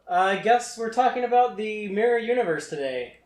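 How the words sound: It sounds grudging and passive-aggressive. The speaker resents the topic. The speaker calls it wrong. "Don't say it passive-aggressive like that"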